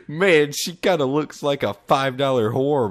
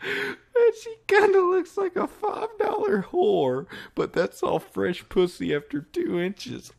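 First: Said in the usual way. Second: Laughing. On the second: Real, not acted. Rereads line laughing.

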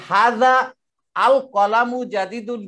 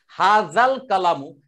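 First: হাযা আল কলামু with a pause after হাযা and the hamza of আল sounded; wrongly unjoined words. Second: হাজাল কালামু run together, the hamza of AL silent; hamza dropped. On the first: Teacher showing students what we don't say, wrongly unjoined words. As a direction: say হাযা আল কলামু slowly as separate words, AL not dropped. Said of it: "বলি না আমরা". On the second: Teacher showing mid-sentence linking, hamza dropped. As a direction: slowly link haza into l-kalamu as হাজাল কালামু, no break. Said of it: "এটা উচ্চারিত হয়নি হামজা". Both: Shown as a demonstration.

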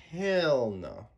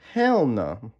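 First: Said in the usual way. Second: "Hell no" punched louder with a rising "hell"; loud rising "Hell no" with "hell" stressed; emphatic "Hell no". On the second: Real, not acted.

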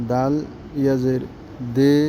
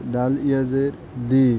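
First: দে with a long Bengali e; majhul e sound. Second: দি with a long ee; maruf long ee. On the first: Teacher drilling ya majhul for pupils, e sound. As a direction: spell it out, then a held 'day' for দে. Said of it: "একারের আওয়াজটা আসবে". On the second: Teacher drilling ya maruf for pupils, long ee. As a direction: spell it out, then a held 'dee' for দি. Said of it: "দীর্ঘিকারের আওয়াজটা আসবে". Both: Shown as a demonstration.

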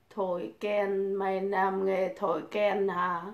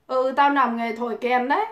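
First: Soft, slow read of the viewer's jibe; quiet, slow read-out of the chat line; reading the insult. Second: Said in the usual way. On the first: Retold or imitated. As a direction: read the question back under your breath. Ừ, tao làm nghề thổi kèn đấy.

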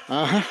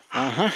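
No difference in how they are said.

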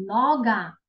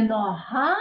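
First: "нога" as NO-ga, stressed first with a hard g; front-stressed "нога", falling at the end; penultimate stress. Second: End-stressed "нога", lifting at the finish; wrong final stress. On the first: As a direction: correct it to Polish "нога", NO-ga. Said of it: "Передостатнє слово". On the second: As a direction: show the Ukrainian "нога", no-HA, as the one to avoid. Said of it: "не нога". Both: Shown as a demonstration.

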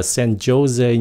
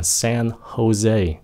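First: "Jose" said with a z-like J, zo-ZAY; mispronounced San Jose. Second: "Jose" said ho-ZAY, J as H; correct San Jose. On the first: Teacher showing the mistake, Jose as zo-ZAY. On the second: Teacher correcting the city name, Jose as ho-ZAY. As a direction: breathe an H to start "Jose". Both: Shown as a demonstration. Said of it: "Không phải là San Jose".

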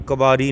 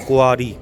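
First: ਕਬਾਰੀ with a b in place of the ua glide; quick ਕਬਾਰੀ, said ka-baa-ree; mispronunciation demo. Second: ਕੁਆਰੀ said ku-aa-ree, no b; careful model of ਕੁਆਰੀ with the ua glide; correct pronunciation. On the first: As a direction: say ਕਬਾਰੀ as the mistaken reading, with a b. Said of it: "ਕਬਾਰੀ ਨਹੀਂ ਕਹਿਣਾ". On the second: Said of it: "ਇਹਨੂੰ ਕੁਆਰੀ ਬੋਲਣਾ". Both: Shown as a demonstration.

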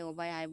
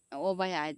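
First: Said in the usual way. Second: Louder mock call of a child; imitating child's call. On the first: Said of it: "তা আমি ওকে বলি". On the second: Mother imitating her child calling a friend over, louder child's call. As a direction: call out loudly, as the child does. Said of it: "যে বলছে".

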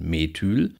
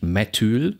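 First: "Methyl" with a short, tense e and the stress on the end; correct short tense e. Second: "Methyl" with a long, stretched e in the first syllable; wrong long e. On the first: Lecturer giving students the correct form, short tense e in "Methyl". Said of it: "sondern Methyl". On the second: Lecturer showing students the wrong reading, "Methyl" with a long first e. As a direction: say "Methyl" the wrong way, first vowel drawn out like Meeethyl. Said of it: "Das heißt ja nicht Methyl". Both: Shown as a demonstration.

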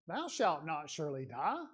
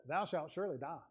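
First: "Thou shalt not surely die" lifted into a question, rising at the end; softer, questioning rise on "die"; question inflection. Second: "Thou shalt surely die" stated firmly as a plain fact; quiet, certain statement, no rise; flat statement. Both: Shown as a demonstration. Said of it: "You see the difference in the inflection of my voice there".

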